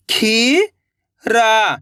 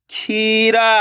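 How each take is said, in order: First: खीरा held out very slowly, each sound drawn long. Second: Said in the usual way. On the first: Shown as a demonstration. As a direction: stretch खीरा sound by sound for the learner. (खीरा को बहुत धीरे खींचकर बोलें) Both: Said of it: "तो मिलके बन जाएगा".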